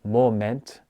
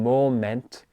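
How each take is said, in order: Both takes have the same delivery.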